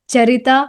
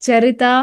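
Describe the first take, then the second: No difference in how they are said.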